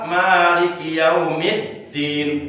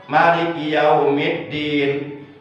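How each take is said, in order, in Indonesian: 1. Vokal setelah m dibaca panjang. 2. Vokal setelah m dibaca pendek. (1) "mimnya boleh dibaca martobi'i satu alif dua harkat" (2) "Juga boleh dibaca tanpa mad"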